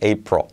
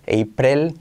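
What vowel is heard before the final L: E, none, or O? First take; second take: none; E. First: No vowel is heard before the final L. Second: A clear E vowel precedes the final L. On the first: The speaker calls it right. "es como si no hubiera vocal" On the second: The speaker calls it wrong. "Si intentas poner una E"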